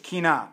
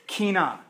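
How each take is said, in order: First: Kina repeated as KEE-nah, falling; Hebrew word. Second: Kina said KEE-nah, falling; Hebrew word. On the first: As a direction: spell it, then say kina again as KEE-nah. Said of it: "Q I N A H". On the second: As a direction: say kina as KEE-nah, stress on the first syllable. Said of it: "it's the word in Hebrew". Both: Shown as a demonstration.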